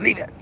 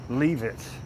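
First: The command is said sharply and firmly. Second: The command is said mildly and gently.

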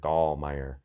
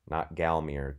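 First: The name is pronounced in a German way. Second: The name is pronounced in a non-German way. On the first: The speaker calls it right. "Very German, got to think German" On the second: The speaker calls it wrong.

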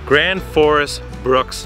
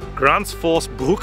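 First: The name is said with English-style sounds. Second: The name is said with Swedish-style sounds. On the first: The speaker calls it wrong. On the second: The speaker calls it right.

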